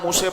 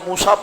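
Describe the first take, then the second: First: The word ends in an 'e' sound. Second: The word ends in an 'a' sound. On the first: "वो मूसे पढ़ रहा है" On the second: "वहां खड़ा जबर है, उसको मूसा पढ़ना चाह रहा है"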